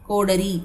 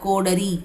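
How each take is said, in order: Both takes have the same delivery.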